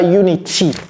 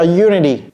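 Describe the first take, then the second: First: The middle t is a full, clear t. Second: The middle t is a quick flap. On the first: The speaker calls it wrong. "ce n'est pas unity" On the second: The speaker calls it right. "un Américain va dire unity"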